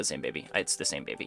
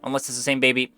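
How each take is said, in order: First: Dropped low and much softer; quiet resigned. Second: Said in the usual way. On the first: Real, not acted. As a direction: settle it with a resigned, quiet sigh of a line. Concluding that it's the same baby.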